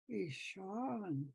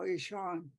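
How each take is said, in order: First: It is said warmly, with sympathy. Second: It is said flatly, without feeling. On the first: The speaker calls it right. "It shows up in your tone of voice" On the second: The speaker calls it wrong. "you don't just say, "Oh, Ishan,""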